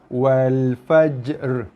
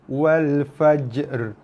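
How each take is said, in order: No difference in how they are said.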